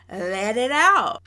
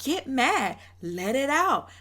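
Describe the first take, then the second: First: Louder, slow, patronizing "Let it out"; a hammed-up condescending taunt; condescending, drawn out. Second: A mild mock of her patronizing tone; a touch of condescension; condescending. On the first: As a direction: stretch it out slowly to mock her goading. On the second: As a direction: imitate her goading him, lightly. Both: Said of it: "so condescending and rude".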